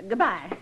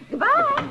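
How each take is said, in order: First: Said in the usual way. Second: Higher, louder goodbye called after them; calling out. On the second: Acted. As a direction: call goodbye to riders leaving. Old woman calls after departing visitors.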